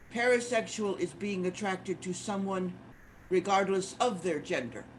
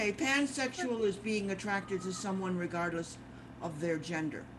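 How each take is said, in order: Both takes have the same delivery.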